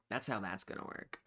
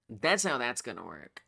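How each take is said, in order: First: Muttered quietly. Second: Said in the usual way. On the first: Real, not acted.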